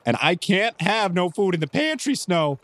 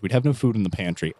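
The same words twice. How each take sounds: First: Higher, nervous protest; really nervous. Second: Said in the usual way. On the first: Acted. Clyde to Snow about an empty pantry, really nervous. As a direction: fret anxiously at the very thought. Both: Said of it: "Clyde gets really nervous as soon as Wilson suggests".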